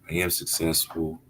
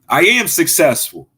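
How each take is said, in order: First: It is said flatly, without much force. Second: It is said forcefully, with strong conviction. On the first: The speaker does not really believe it. The speaker calls it wrong. "don't just go to the mirror and say" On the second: The speaker truly believes it. The speaker calls it right. "Say it with your chest"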